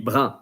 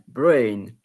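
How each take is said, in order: First: The vowel is a French nasal vowel. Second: The vowel is an English 'ay' sound.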